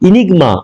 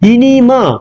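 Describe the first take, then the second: First: The g sound in the middle is pronounced. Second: The g sound in the middle is dropped.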